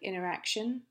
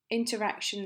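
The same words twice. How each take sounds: First: The t sound after n is left out. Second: The t sound after n is clearly pronounced.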